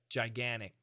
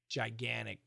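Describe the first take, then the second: First: The T sound is dropped. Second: The same.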